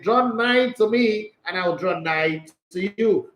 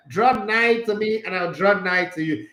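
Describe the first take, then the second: First: Slow, solemn King James quote; mock-solemn Bible verse; King James reading. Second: Mock-solemn archaic verse; King James reading. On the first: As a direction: intone it like old scripture. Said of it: "Bible says". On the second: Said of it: "King James and all those Amomo English".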